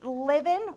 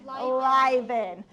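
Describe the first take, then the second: First: The first vowel is short, as in 'live'. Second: The first vowel is long, as in 'line'. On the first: The speaker calls it wrong. "we don't say livin'" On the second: The speaker calls it right. "we say liven"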